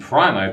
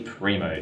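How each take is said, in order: First: It is said the way the spelling suggests. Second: It is said with the actual Italian pronunciation. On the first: The speaker calls it wrong. "it looks like it should be Primo" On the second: The speaker calls it right. "but it's actually Primo"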